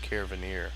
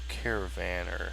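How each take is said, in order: First: The last syllable sounds like 'neer'. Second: The last syllable sounds like 'ner'. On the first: "I always want to say caravaneer" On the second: "I think that's how you say that"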